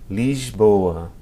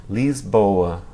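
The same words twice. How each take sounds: No difference in how they are said.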